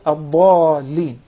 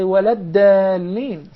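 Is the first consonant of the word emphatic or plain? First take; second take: emphatic; plain. First: It starts with a heavy, emphatic d sound. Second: It starts with a plain, light d sound. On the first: The speaker calls it right. "instead of" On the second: The speaker calls it wrong. "don't say"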